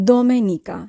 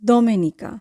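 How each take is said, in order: No difference in how they are said.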